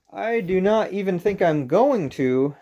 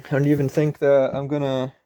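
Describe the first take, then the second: First: Slower and higher, every word separate; slow careful enunciation. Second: Said in the usual way. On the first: Shown as a demonstration. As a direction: spell out "I do not even think I'm going to" slowly and carefully. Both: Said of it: "that's what I'd meant to say".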